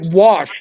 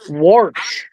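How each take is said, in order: First: It is said plainly, without an r sound. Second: It is said Minnesota-style, with an added r.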